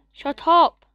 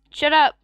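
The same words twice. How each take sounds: First: Loud yell, higher; louder shout at dog. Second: Loud yell at the dog; shouting at dog. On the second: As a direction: bark it out at the dog. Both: Real, not acted. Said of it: "to the dog".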